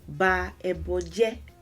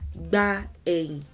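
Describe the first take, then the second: First: The words are said separately in full form. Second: The words are run together into a short form. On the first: "if you say the statement in full" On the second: "Contraction of three words"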